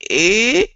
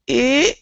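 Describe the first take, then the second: First: The vowel starts and ends with a throat catch. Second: The same.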